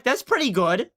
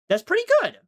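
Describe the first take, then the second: First: Said in the usual way. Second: "That's pretty good" jumped way up high; high-pitched repeat. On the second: Pretend. Repeats line, second time pitched up.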